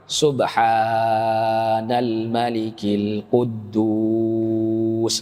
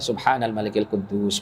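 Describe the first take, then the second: First: The phrase is slow, with sounds drawn out. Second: The phrase is at normal speed, not drawn out. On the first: This is the third and final recitation. "di akhir itu diperpanjang bacanya. Diperpanjangnya maksudnya bagaimana?" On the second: This is one of the first two recitations. "yang dua sebelumnya biasa"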